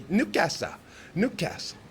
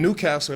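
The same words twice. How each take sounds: First: Put-on Newcastle in a playful Geordie accent, pitched higher; mock Geordie pronunciation of Newcastle. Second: Said in the usual way. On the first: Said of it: "one of the funniest ones". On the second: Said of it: "It's like Newcastle".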